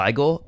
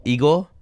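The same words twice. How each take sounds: First: IGOR tried as "EYE-gor", questioning; unsure pronunciation. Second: IGOR tried as "EE-gor", questioning; alternative pronunciation. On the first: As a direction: try "Igor" with a long-I opening, rising. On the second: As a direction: try "Igor" with an ee opening, rising. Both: Shown as a demonstration. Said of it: "I think it's Igor".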